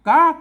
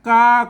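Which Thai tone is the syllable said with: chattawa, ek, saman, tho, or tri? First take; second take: tri; saman. First: The syllable is said with the tri tone. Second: The syllable is said with the saman tone.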